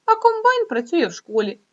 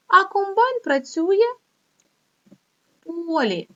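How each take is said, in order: First: А rises high and louder, the whole line bouncy; silly mixed-up line. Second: "А" rising high, "в полі" slow and drawn out; slow corrected line. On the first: Teacher reading Vitya's muddled line to pupils, playful. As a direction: make "а комбайн працює в школі" sound like a playful joke. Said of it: "Каже". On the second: Teacher reading the corrected line to pupils, slow and deliberate. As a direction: spell out the right version slowly. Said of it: "де? В школі". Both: Shown as a demonstration.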